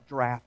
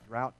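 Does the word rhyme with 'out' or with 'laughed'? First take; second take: laughed; out. First: The vowel sounds like the one in 'laughed'. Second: The vowel sounds like the one in 'out'. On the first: "It's like draft or something like that" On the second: "I don't even know if I'm pronouncing that right"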